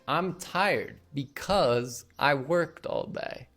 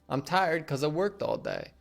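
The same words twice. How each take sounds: First: 'Because' is said fully with both syllables. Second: 'Because' is shortened to 'cuz'. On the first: "Instead of saying" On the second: "because gets shortened down to cuz"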